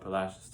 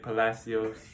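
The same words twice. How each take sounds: First: The name is said with the local pronunciation. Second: The name is said with the common outsider pronunciation. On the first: This is how residents of the town say it. The speaker calls it right. "that's how the locals say it" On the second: This is how many non-residents say it. The speaker calls it wrong. "A lot of people say Palacios"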